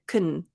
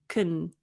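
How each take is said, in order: First: The word has a short, reduced vowel. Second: The word has a short, reduced vowel.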